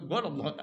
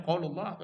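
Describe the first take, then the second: First: "qaulullah" with a hard g, as "golla"; "qaulullah" said dialect-style, opening on g; dialect G sound. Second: "qaulullah" with a q sound, as "qolullah"; "qaulullah" in standard Arabic, q kept; standard qaf. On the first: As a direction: swap the qaf of "qaulullah" for g. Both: Shown as a demonstration. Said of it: "Go-, Qaf beda go".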